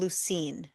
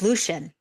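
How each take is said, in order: First: The name ends in '-een', almost like 'Lucy'. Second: The name is said in an English style. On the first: The speaker calls it wrong. "he called him Lucine every time. Like it almost sounded like he was saying Lucy" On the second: The speaker calls it right. "It's Lucian"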